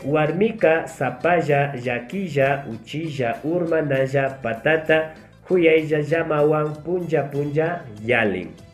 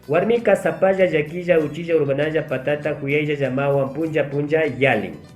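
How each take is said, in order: First: It is spoken slowly. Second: It is spoken as fast as possible. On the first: "la primera lenta" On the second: "voy a tratar de leer lo más rápido posible"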